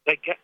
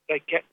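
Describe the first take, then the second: No difference in how they are said.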